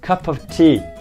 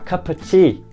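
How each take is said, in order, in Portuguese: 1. A palavra 'of' é pronunciada por inteiro. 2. A palavra 'of' é reduzida quase a nada. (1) "quando a gente fala cup of tea" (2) "que chega até a ficar cup of tea"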